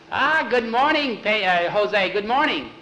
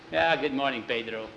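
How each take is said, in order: First: Loud, high-pitched effusive welcome; beaming greeting. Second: Said in the usual way. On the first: A narrator's reading. Pedro comes out grinning to greet Jose, effusively. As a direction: greet him with a huge grin. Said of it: "came out smiling from ear to ear".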